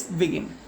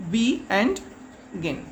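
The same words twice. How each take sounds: First: Said in the usual way. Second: "be and gin" as two parts, pause before gin; split into syllables. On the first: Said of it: "Means begin". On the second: Shown as a demonstration. Teacher showing children two syllables, "be and gin" said in separate parts. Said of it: "two syllables".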